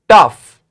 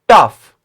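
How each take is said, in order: No difference in how they are said.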